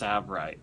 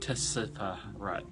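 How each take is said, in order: First: The word begins without a T sound. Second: The word begins with a T sound. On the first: The speaker calls it right. "You don't pronounce the T; it's silent" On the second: The speaker calls it wrong. "not Tsavorite"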